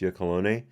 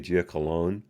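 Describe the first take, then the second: First: The name ends with a sounded final vowel. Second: The name ends without a sounded final vowel. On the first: "actually pronounced" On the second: "I don't see an accent ever on the end of his name"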